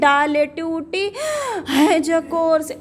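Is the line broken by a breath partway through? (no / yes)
yes. A breath breaks the line near the end. The speaker calls it wrong. "ये नहीं कि ... ऐसे नहीं करते हैं"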